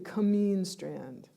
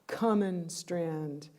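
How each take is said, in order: First: The stress is on the second syllable. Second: The stress is on the first syllable. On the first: It is the place's real name. "It's really cameen strand, but that doesn't fit into the rhythm" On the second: It fits the rhythm of the poem. "with their stressed first and third syllables"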